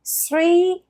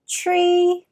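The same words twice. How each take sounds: First: Three with an s, like sree; three said with s instead of th; French-style three. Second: Three said as tree, with a hard t; three with t instead of th; French-style three. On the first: Teacher imitating the French learner's mistake, s-sound. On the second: Teacher imitating French learners, t for th. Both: Shown as a demonstration. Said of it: "souvent les francophones disent".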